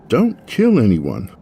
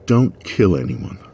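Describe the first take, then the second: First: Slower, weighing each word, stress on kill; slow deliberate repeat. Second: Said in the usual way. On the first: Acted. Tamsin repeating Finn's warning to herself, slow and deliberate. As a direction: mull the words over slowly. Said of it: "I repeated Finn's last words".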